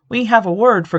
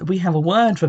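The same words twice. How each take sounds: First: It is said in a put-on character voice. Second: It is said in the speaker's normal voice. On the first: The speaker calls it right. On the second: The speaker calls it wrong.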